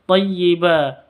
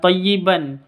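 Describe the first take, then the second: First: The word ends in a long held vowel. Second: The word ends with a final n sound. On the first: The speaker calls it right. "tapi thayyiba" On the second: The speaker calls it wrong. "bukan thayyiban"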